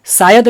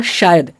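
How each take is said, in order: First: "शायद" said as "sayad", plain s; mispronounced s sound. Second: "शायद" with a hushing sh at the start; correct sh sound. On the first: Teacher showing what he didn't say, "शायद" as "sayad". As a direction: swap the sh of "शायद" for a hissed s. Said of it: "नहीं बोला". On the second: Teacher repeating what he said, "शायद" with pure sh. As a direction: begin "शायद" on a clear palatal sh. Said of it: "क्या बोला?". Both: Shown as a demonstration.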